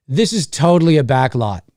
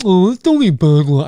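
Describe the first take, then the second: First: Said in the usual way. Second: Put-on goofy sneering voice; mock it in a silly, altered voice. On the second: Shown as a demonstration. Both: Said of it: "I don't say it like that".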